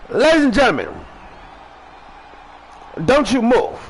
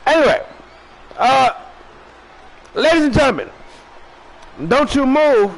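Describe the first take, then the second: First: Raised host announcement to the audience; announcer call. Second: Big announcer call. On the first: Host addressing viewers, announcer call. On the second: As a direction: boom it out like a wrestling announcer. Repeats sign-off, bigger. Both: Acted.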